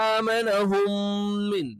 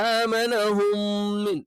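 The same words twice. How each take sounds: The two takes are said the same way.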